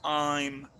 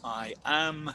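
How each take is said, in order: First: It is said as one contracted syllable. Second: It is said as two separate full words. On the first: The speaker calls it right. "generalmente decimos I'm" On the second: The speaker calls it wrong. "no decimos I am"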